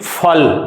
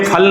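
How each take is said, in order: First: It begins with an f sound. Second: It begins with an aspirated p sound. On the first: The speaker calls it right. "गहरा उच्चारण करना है" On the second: The speaker calls it wrong. "ये फल नहीं है"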